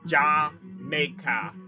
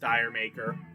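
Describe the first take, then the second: First: It is said in a British accent. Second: It is said in an American accent. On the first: The speaker calls it right. "it's supposed to be said sort of with a British accent" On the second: The speaker calls it wrong. "which many Americans pronounce as Dire Maker"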